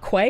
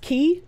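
First: It is said with a 'kw' start, rhyming with 'day'. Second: It is said like the word 'key'. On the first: The speaker calls it wrong. "It's not Quay" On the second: The speaker calls it right. "It's pronounced Key"

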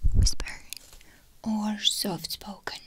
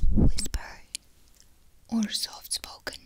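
First: It is spoken softly with voice. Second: It is whispered without voice.

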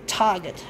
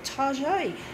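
First: The name is said in its plain form. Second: The name is said in an altered form. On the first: This is the store's real name. "as it's actually called" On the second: This is a playful nickname for the store. "but I just love to call it Taaaget"

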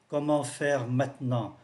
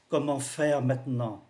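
Both takes have the same delivery.

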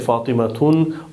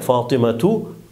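First: The name ends with an added n sound. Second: The name ends on a short vowel. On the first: The speaker calls it wrong. "we don't say Fatimatun" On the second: The speaker calls it right. "just one haraka"

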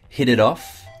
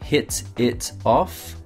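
First: The words run together with linked sounds. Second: Each word is said separately, without linking.

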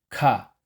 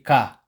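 First: The k is aspirated, with a puff of air. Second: The k is plain, without a puff of air. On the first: The speaker calls it right. "Dapat ka" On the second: The speaker calls it wrong. "Hindi ka"

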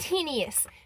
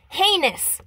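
First: There is an 'ee' sound after the n. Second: There is no 'ee' sound after the n. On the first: The speaker calls it wrong. "Not heinous" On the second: The speaker calls it right. "It's heinous"

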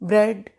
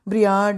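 First: The vowel is a short 'eh'. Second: The vowel sounds like 'ee-ah'. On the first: The speaker calls it right. "Correct pronunciation है" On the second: The speaker calls it wrong. "तो नहीं बोलेंगे ना आप"

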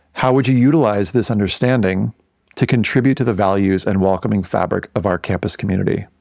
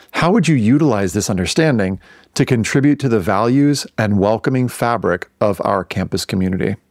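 The two takes are said the same way.

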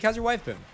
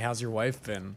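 First: The question is asked in a warm, friendly tone. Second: The question is asked in an odd, creepy tone. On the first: The question shows genuine care. The speaker calls it right. "Then it's really considerate" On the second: The question seems strange and intrusive. The speaker calls it wrong. "It's a little weird"

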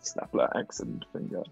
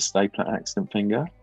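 First: It is said in a put-on German-style accent. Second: It is said in the speaker's normal accent.

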